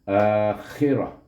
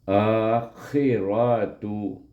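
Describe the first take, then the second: First: The word ends with an H sound. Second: The word ends with a 'tu' syllable. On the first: The reading stops at this word. "kita matikan dia dengan akhirah" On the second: The reading carries on to the next word. "kita akan zahirkan bunyi tu itu"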